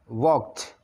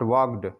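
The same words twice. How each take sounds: First: The ending is a plain t sound. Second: The ending is a separate 'ed' syllable. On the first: The speaker calls it right. "walked as walked" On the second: The speaker calls it wrong. "not walked"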